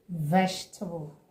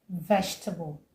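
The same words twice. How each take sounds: No difference in how they are said.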